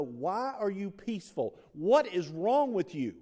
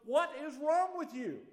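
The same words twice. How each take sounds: First: Louder, slowed, higher mock-incredulous asking; puzzled onlookers. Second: Much higher, louder mock bewilderment; baffled world. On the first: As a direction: lean in like a stunned bystander. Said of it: "They want to know". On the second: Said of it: "the world looks at you and goes".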